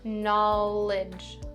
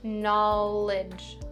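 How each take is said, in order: First: The second syllable has an 'ih' vowel. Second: The second syllable has an 'ih' vowel.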